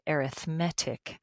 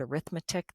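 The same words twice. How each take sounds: First: The stress is on the third syllable. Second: The stress is on the second syllable. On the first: It describes the sequences as an adjective. "we put the emphasis on the different syllable, this syllable, M E T, the met part" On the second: It names the subject of math. "When you just say the word arithmetic, that's a noun"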